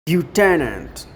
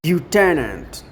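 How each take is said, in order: First: It is said with an American pronunciation. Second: It is said with an American pronunciation.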